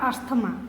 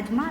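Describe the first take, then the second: First: The middle is said with an st sound. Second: The middle is said with a z sound. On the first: "लेकिन अस्थमा भी पढ़ता है बहुत लोग" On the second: "इसको एजमा पढ़ते हैं ऐसे"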